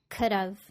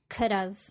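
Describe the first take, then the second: First: Have is reduced and joined to could. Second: Have is reduced and joined to could.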